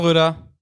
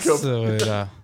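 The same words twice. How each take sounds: First: It is called out quickly. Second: It is said slowly and plainly.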